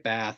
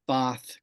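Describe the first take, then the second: First: The vowel is a front, American-style vowel. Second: The vowel is a more back, Australian-style vowel.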